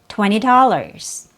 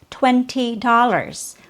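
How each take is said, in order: First: The second T in twenty is dropped. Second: The second T in twenty is pronounced. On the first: It is casual everyday speech. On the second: It sounds proper.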